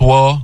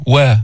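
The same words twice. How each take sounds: First: وا with a wrongly heavy, dark vowel. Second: وا with a light, thin vowel; light, open وا; correct light wa. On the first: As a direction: say وا thickened, as the mistake. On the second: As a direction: say وا clean and unthickened. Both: Shown as a demonstration. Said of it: "مش وا".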